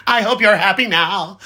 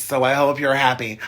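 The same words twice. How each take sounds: First: Laughing mock scold. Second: Said in the usual way. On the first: Laughing as he playfully blames the singing princes. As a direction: tease them with a giggling fake reproach. Teasing the princes who caused agony.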